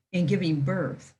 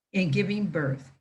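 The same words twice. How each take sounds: The two takes are said the same way.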